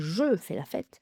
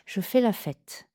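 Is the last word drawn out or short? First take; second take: short; drawn out. First: The last word is not lengthened. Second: The last word is clearly lengthened. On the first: The speaker calls it wrong. "on ne va pas dire" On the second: The speaker calls it right. "On va donc allonger le dernier mot de la phrase"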